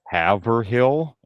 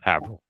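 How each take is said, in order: First: The name is pronounced just as it is spelled. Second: The name is pronounced in a local, shortened way. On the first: The speaker calls it wrong. "I'm pronouncing everything phonetically" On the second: The speaker calls it right. "No, it's Haverhill"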